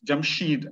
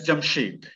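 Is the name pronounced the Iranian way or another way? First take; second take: Iranian way; another way. First: The name is said in an Iranian pronunciation. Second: The name is said in a non-Iranian pronunciation.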